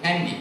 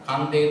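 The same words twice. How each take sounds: First: "Kandy" with a flat a and an -ee ending; British mispronunciation. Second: "Kande" with an open ah, as in Sinhala; original Sinhala pronunciation. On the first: Host showing how the British said the Sinhala word, anglicised "Kandy". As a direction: say "Kandy" like English candy. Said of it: "they would pronounce it Kandy". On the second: Host giving the original Sinhala word for mountain, native pronunciation of "Kande". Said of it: "the origin of the word". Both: Shown as a demonstration.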